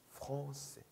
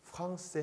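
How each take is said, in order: First: 프랑세 with the nasal 엉 sound; 프랑세 pronounced with French nasal vowel. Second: 프랑세 with a flat Korean 앙 vowel; 프랑세 as a Korean learner wrongly says it; wrong Korean-style 프랑세. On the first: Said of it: "엉이에요". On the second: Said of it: "프랑세 하면 안 돼요". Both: Shown as a demonstration.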